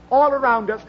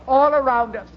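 Both takes have the same delivery.

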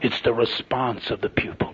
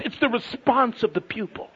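First: Slow, low, near-whisper; hushed. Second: High-pitched, insistent pulpit point; emphatic preaching. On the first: Preacher repeating the lesson to a brother, hushed. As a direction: sink into a slow hush to let it land. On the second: Preacher correcting ideas about teaching, emphatic. Preaching punchline, first take. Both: Real, not acted.

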